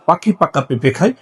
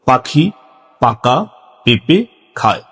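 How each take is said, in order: First: It is said at a noticeably quicker pace. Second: It is said slowly in short separate chunks. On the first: "আরো একটু স্পিডে" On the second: "সংক্ষিপ্তভাবে ছোট ছোট করে ... এভাবে বলতে হবে"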